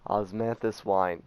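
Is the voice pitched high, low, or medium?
medium. The voice is pitched somewhat lower, mid-range. "A little bit lower"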